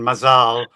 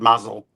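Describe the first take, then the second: First: It is said in the Israeli Hebrew way. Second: It is said in the Yiddish way. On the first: "that is the Hebrew Israeli pronunciation"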